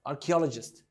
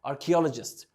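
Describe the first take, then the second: No difference in how they are said.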